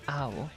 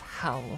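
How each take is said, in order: First: The word begins without an h sound. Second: The word begins with a clear h sound. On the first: The speaker calls it wrong. "they don't use the letter H a lot in their words" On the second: The speaker calls it right. "No, it's how"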